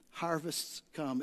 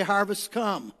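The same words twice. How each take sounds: First: Soft, slow line. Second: Said in the usual way. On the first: Shown as a demonstration. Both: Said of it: "Everybody say".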